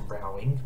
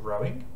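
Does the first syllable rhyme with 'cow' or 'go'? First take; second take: cow; go. First: The first syllable rhymes with cow. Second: The first syllable rhymes with go. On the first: The word is read with its non-sport meaning. "could also be pronounced rowing" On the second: The word is read as the sport. "because I'm sticking with the theme of sports, I'm going to pronounce it rowing"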